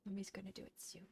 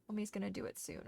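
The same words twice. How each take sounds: First: Softly whispered to the dog; hushed comfort to the puppy. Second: Said in the usual way. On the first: Real, not acted. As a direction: whisper it close and tender. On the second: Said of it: "repeated in a whisper".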